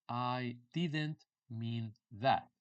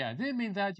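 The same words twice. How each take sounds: First: Word by word, long drawn out; dictation-slow teaching delivery; very slow model phrase. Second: Said in the usual way. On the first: Shown as a demonstration. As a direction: say each word separately for learners.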